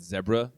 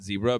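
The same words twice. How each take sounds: First: It is said with an Australian pronunciation. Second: It is said with an American pronunciation. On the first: "they basically said zebra" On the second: "not zebra"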